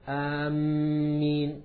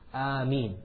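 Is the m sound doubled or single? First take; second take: doubled; single. First: The m sound is doubled and held. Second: The m sound is single and short. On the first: The speaker calls it wrong. "they put a shadda on the meem and they say Ameen" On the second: The speaker calls it right. "the meem has a pure kasra"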